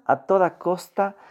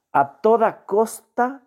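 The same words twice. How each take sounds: First: Said in the usual way. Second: A toda costa slow, much higher, rising on toda; stress on a toda costa. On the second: Real, not acted. Teacher stressing to students, slow and emphatic. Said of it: "repeated for emphasis".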